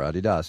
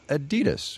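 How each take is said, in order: First: The name is said the European, German-based way. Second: The name is said the American way. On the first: The speaker calls it right. "You've been saying Adidas, as in Adi Dassler" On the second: The speaker calls it wrong. "Over here we say Adidas"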